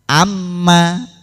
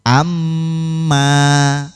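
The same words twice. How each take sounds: First: The nasal m is cut short. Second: The nasal m is held long. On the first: The speaker calls it wrong. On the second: The speaker calls it right.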